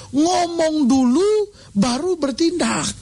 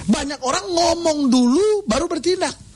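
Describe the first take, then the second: First: Each word drawn out slowly; a slow, weighty repeat of the point; slow, stretched emphasis. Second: Said in the usual way. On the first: Acted. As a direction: lean on it, slow and deliberate.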